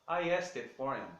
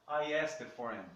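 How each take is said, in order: The two takes are said the same way.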